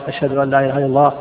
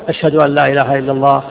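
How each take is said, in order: Both takes have the same delivery.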